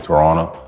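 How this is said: It is said with a Canadian accent.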